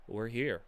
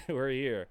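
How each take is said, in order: First: Said in the usual way. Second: A tired laugh through the words. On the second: Real, not acted. Player repeating they made the final: laughing relief.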